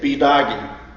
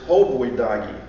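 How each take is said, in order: First: The unstressed first syllable is left out. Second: The unstressed first syllable is pronounced. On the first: This is how people say it today in fast talk. "People today say" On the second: This is the full, original form of the word. "The real word is"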